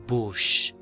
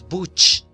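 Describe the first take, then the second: First: It has a soft hushing 'sh' sound. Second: It has a hard 'ch' sound, as in church. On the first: The speaker calls it right. "No, es vash, bush" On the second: The speaker calls it wrong. "Si sonara che, dijéramos buch"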